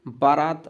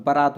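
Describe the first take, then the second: First: Long aa in the first syllable of बारात; teacher showing the long-vowel mistake; wrong pronunciation. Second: Short first a in बारात, as ba-raat; teacher modelling ba-raat; correct pronunciation. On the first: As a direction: say बारात as baa-raat. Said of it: "बारात अशुद्ध होता है". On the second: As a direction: keep the first vowel of बारात short, the second long. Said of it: "बारात होता है वो". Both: Shown as a demonstration.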